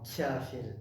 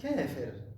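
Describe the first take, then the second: First: The first consonant is a lighter, fronter k sound. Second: The first consonant is deep and heavy, far back. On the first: The speaker calls it wrong. "Mais les Turcs, on va dire kafir, K. Et comme le K il est différent" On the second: The speaker calls it right. "en arabe on dit kafir"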